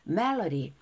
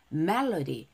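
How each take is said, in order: Both takes have the same delivery.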